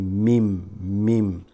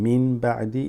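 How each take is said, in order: First: The first word ends with an m sound. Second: The first word ends with an n sound. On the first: The speaker calls it right. "you say mim" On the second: The speaker calls it wrong. "instead of saying min ba'di"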